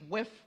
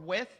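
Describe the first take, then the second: First: The word ends with an f sound. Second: The word ends with a th sound.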